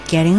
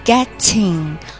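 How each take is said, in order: First: The t sounds soft, almost like a d. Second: The t is released with a puff of air. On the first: The speaker calls it right. "我们把它发成类似于D 的音" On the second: The speaker calls it wrong. "我们不发getting 漏气"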